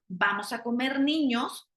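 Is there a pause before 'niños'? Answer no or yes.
no. The phrase runs on without any pause. Children are what will be cooked and eaten. "vamos a cocinar niños"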